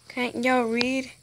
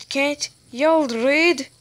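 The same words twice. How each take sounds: First: Said in the usual way. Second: Slow, loud exasperated repeat; louder, slower repeat. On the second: Real, not acted. Kid repeating louder at players who won't read. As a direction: hammer it home louder.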